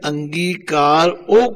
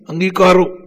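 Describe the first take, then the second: First: The two words are kept clearly separate. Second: The two words run together as one word. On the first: The speaker calls it right. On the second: The speaker calls it wrong.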